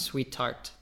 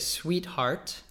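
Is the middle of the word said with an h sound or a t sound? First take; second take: t sound; h sound. First: The h is dropped, giving a t sound. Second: The h in the middle is pronounced. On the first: "in British English, because often you'll kind of cut an H" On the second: "in American English, we'd probably say sweetheart"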